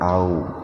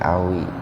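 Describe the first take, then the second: First: The word ends on the w sound. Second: The word ends with an added i vowel. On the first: This is the original form of the word. "asalnya itu au" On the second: The vowel is added because two silent letters meet. "yang pertama diaktifkan dengan kasroh"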